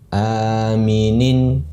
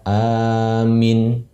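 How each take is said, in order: First: The word ends with a full -in ending. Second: The word ends on a bare consonant. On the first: The reader continues without stopping. "kalau tidak berhenti kita baca aminun, aminin" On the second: The reader stops at this word. "kalau dalam kondisi waqaf atau berhenti ... Kita baca amin"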